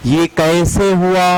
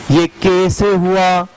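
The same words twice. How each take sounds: The two takes are said the same way.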